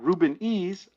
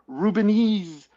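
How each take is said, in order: First: The letter E is said as a separate sound. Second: The E is merged into one word with the name. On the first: This is how the creator meant the name. The speaker calls it right. "I thought Reuben E's a parodies" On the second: This is how everyone else reads the name. The speaker calls it wrong. "not one person has pronounced it that way. It's Rubenese"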